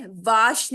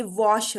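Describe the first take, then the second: First: वाश with a long open "aa" as in father; wrong vowel. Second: वॉश with a rounded "aw" vowel; correct vowel. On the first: Teacher shows students the wrong vowel, mispronounced वाश with "aa". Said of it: "यहाँ पे वाश नहीं है". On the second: Teacher corrects the vowel for students, वॉश with rounded "aw". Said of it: "ये वॉश होता है". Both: Shown as a demonstration.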